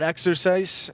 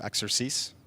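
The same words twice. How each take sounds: First: It is said in a plain, unaccented way. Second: It is said with a slight French accent.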